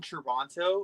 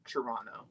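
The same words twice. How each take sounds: First: The second T is clearly pronounced. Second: The second T is dropped. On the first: The speaker calls it wrong. "that first hard T" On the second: The speaker calls it right. "I corrected myself on the second time because I'm not allowed to pronounce the second T"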